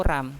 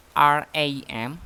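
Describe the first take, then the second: First: Ram as a single syllable; read as one word. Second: R A M as three separate letters; spelled letter by letter. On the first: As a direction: say ram as a word, not as letters. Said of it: "Dibacanya ram". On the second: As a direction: say each letter of R A M by itself. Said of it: "Dibacanya apakah R A M atau ram". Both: Shown as a demonstration.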